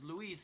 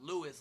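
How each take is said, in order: First: The name is said with a Spanish pronunciation. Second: The name is said with an English pronunciation. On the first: This is the original Spanish way of saying it. "technically in Spanish" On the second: This is how locals usually say it. "not Louis like we say it"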